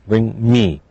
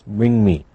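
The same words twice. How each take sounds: The two takes are said the same way.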